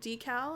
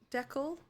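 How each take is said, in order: First: It is said with an American pronunciation. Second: It is said with a British pronunciation. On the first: "instead of decal" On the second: "isn't the British term uh decal"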